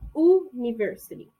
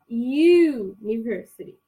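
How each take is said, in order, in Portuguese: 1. Começa com som de vogal simples, sem 'y'. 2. Começa com som de 'y', como em 'you'. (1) "a gente não fala university" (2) "tem som de Y, igualzinho na palavra you"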